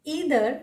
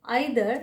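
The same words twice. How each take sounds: First: "Either" as ee-ther; long ee opening "Either"; alternative pronunciation. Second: "either" as eye-ther; alternative pronunciation. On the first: Teacher showing one accepted "Either", said ee-ther. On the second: Teacher showing the other accepted "either", said eye-ther. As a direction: eye diphthong opening "either". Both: Shown as a demonstration. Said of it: "ये सारे प्रोनंसिएशंस correct".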